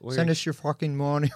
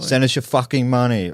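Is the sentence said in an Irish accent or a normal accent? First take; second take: Irish accent; normal accent. First: It is said in a put-on Irish accent. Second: It is said in the speaker's normal accent.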